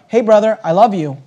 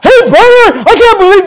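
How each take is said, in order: First: Gentle approach. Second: High, loud accusing outburst; accusing confrontation. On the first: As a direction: reassure him tenderly. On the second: The wrong way to approach a brother, high and loud. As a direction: lay into him, high and loud. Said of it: "no, no, no". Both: Shown as a demonstration.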